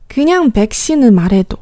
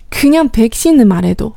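First: The first consonant is lax, with little breath. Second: The first consonant is aspirated, with strong breath.

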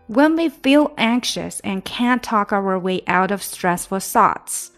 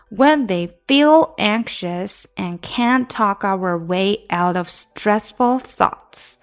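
First: The sentence is read at a quicker pace. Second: The sentence is read at a moderate pace. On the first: "加快一些吧。" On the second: "我们现在从头读。"

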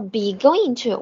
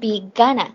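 First: Going to is said in full, as two words. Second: Going to is squeezed into one quick word.

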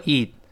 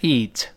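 First: The final t is dropped, said quickly. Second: The final t is clearly released. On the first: "读快了之后eat，最后呢它失去爆破也行" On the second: "读出来呢eat 可以"

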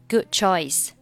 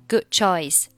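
Both takes have the same delivery.

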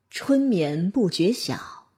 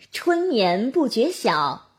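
First: The voice is deep with chest resonance. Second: The voice is bright with mouth resonance. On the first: "用胸腔共鸣" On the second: "再试一下口腔"

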